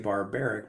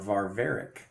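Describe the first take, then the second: First: The word is said with B sounds. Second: The word is said with V sounds. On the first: This is how English speakers say it. "we say it with a B sound" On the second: This is how modern Greek speakers say it. "the Greeks currently say varvaric"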